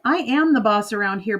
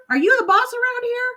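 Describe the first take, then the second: First: Said in the usual way. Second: Very high squawky bird voice, taunting; cheeky parrot mocking the mother; high parrot jeer; yelling parrot. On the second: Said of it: "blinking and yelling".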